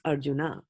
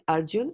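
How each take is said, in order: First: The name ends with an extra final vowel. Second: The name ends on the final consonant. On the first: It is the Sanskrit way of saying the name. "I'm going to use everything in Sanskrit" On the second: It is the Hindi way of saying the name. "when you're pronouncing it in Hindi"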